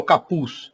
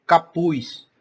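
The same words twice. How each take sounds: First: Said in the usual way. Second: "capuz" ending as "capuis", drawn out; Northeastern "capuz". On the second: Shown as a demonstration. ("capuz" com sotaque nordestino, terminando em "capuiʃ") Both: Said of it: "Essas palavras com Z".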